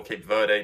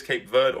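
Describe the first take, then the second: First: Verde in two syllables, "VUR-day"; alternative pronunciation. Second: Verde as one syllable, like "vurd"; English pronunciation. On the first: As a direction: sound the final e of Verde as "ay". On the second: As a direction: say Verde with a silent final e. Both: Shown as a demonstration. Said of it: "depending on how you want to say it".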